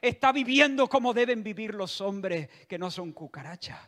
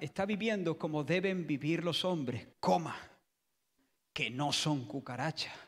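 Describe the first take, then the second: First: It runs on without a pause before que. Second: There is a comma pause before que.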